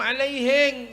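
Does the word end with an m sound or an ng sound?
ng. The word ends with an ng sound.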